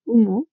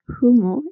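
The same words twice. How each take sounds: First: The initial h is silent. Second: The initial h is aspirated.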